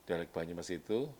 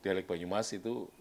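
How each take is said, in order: Both takes have the same delivery.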